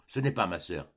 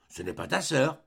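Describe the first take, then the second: First: "Ce n'est pas ma sœur" low, falling; falling statement ending on "sœur"; simple denial. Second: "Ce n'est pas ta sœur" pitched up as a question; questioning lift on "ta sœur"; incredulous echo question. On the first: Boy's denial, then echoed as question. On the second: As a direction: query "ta sœur" in surprise. Ursus echoes denial as question. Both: A narrator's reading.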